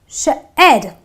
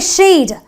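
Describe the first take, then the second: First: The vowel is a short eh sound. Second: The vowel is a long ee sound. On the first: The speaker calls it right. "I say shed. So the E brings about the eh sound" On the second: The speaker calls it wrong. "I don't say sheed"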